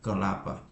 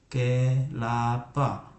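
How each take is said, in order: First: Said in the usual way. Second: Put-on kelapa read slowly, syllable by syllable, as a child joins them; slow blended syllables. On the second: Shown as a demonstration. Parent demonstrating how a child first sounds out kelapa, slowly. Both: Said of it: "Orang tua menyempurnakan pelafalannya".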